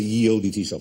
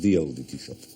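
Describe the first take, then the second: First: The first word begins with a y sound. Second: The first word begins with a th sound. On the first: The speaker calls it wrong. "you no longer have to say" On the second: The speaker calls it right.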